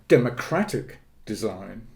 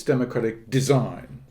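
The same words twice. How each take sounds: First: Weight on "Democratic" in "Democratic design", "design" said lightly; stress on democratic. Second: Weight on "design" in "democratic design", "democratic" said lightly; stress on design. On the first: Showing the host the other reading, stress on "Democratic". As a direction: lean into the word "Democratic". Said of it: "lays the emphasis on the democracy". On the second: Explaining to the host where the emphasis falls, stress on "design". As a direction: lean into the word "design". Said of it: "the emphasis is on the nature of the work". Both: Shown as a demonstration.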